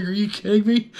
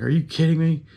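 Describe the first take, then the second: First: High, laughing can't-believe-it; laughing disbelief. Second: High, pushed disbelief; incredulous. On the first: Answering the doctor, high laughing disbelief. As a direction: crack up while asking it. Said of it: "I was like". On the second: To the desk clerk, high incredulous disbelief. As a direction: throw it back at him, can't believe it. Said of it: "And I was like". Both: Retold or imitated.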